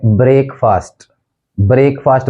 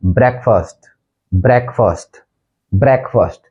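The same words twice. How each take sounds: First: ब्रेकफास्ट with long "break", brayk-fast; common mispronunciation. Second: ब्रेकफास्ट with short E, brek-fast; correct pronunciation. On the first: Teacher showing the mistake, ब्रेकफास्ट as brayk-fast. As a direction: start ब्रेकफास्ट like the word break. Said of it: "गलत बोलते हैं वो है". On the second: Teacher modelling the actual word, ब्रेकफास्ट as brek-fast. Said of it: "actual pronunciation है". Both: Shown as a demonstration.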